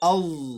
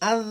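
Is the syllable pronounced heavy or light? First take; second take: heavy; light. First: The syllable is pronounced heavy and deep. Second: The syllable is pronounced light and thin. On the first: The speaker calls it right. "মোটা করে আউজ, গম্ভীর একটা আওয়াজ হবে" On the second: The speaker calls it wrong. "আজ না হয়ে যায়"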